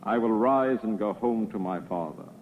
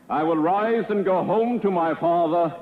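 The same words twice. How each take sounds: First: It is said at a normal volume. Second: It is said more loudly.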